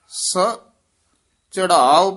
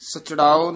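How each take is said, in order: First: It is said as two separate parts. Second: It is said as one joined word. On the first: The speaker calls it right. "ਵੱਖਰਾ ਪਾਠ ਕਰਨਾ" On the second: The speaker calls it wrong. "ਸਚੜਾਓ ਨੀ ਕਹਿਣਾ"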